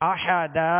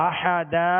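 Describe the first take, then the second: No difference in how they are said.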